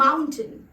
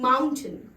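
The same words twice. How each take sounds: The two takes are said the same way.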